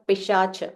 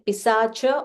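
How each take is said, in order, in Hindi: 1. बीच का व्यंजन 'sh' ध्वनि है। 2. बीच का व्यंजन सादा 's' ध्वनि है। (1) "or Pishacha" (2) "you can say Pisacha"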